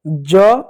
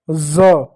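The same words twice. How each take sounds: First: ज as "ja", without the dot; plain ज. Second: ज as "za", with a buzzing z; dotted ज. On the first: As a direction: say ज with a j sound. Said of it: "यह होता है ज". (बिना बिंदी वाला ज) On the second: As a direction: voice ज as z, not j. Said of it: "इसके नीचे जब बिंदी लग जाती है". (बिंदी वाला ज, "z" की आवाज़) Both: Shown as a demonstration.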